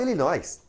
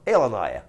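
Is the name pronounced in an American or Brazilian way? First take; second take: Brazilian; American. First: The name is pronounced the traditional Brazilian way. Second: The name is pronounced the original American way. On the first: It follows the form traditional in Portuguese. The speaker calls it right. "a gente fala Illinois" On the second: It follows the original local form. The speaker calls it wrong. "a gente não fala Illinois"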